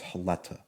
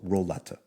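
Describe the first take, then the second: First: The name begins with an H sound. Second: The name begins with an R sound. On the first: This is how Portuguese speakers say it. "in Portuguese they don't pronounce the R's; they pronounce them as H's" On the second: This is how English speakers say it. "So in English it would be an R"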